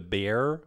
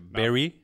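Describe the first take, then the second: First: The name is said as one syllable. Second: The name is said as two syllables.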